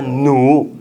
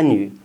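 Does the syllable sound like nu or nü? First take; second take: nu; nü. First: The vowel is a back rounded u sound. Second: The vowel is a front rounded ü sound. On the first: The speaker calls it right. "发奴" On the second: The speaker calls it wrong. "女娲不发女"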